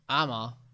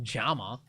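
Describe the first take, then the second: First: The word begins directly with a vowel. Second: The word begins with a J sound. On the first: "Maybe you skip it and you go like ama" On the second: "Isn't double L pronounced J? No. ... it's not Jama"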